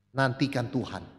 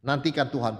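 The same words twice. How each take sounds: First: "nantikan Tuhan" said slowly and softer, lingering on nantikan; slow soft emphasis. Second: Said in the usual way. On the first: Shown as a demonstration. Preacher urging the congregation to wait, slow and soft. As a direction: let "nantikan Tuhan" sink in quietly. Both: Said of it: "Ya, nantikan Tuhan".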